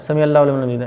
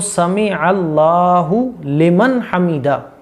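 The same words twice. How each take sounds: First: It is said hurriedly and fast. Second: It is said calmly and slowly.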